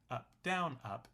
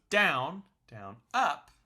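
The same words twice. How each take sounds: First: Said in the usual way. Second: "down, down, up" with punch on the first "down" and on "up"; "down" and "up" struck hard like accented strums. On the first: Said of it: "is no longer accented". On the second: Shown as a demonstration. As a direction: hit the first "down" and the final "up" louder. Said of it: "So you accent the first down".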